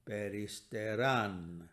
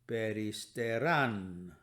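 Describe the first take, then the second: The two takes are said the same way.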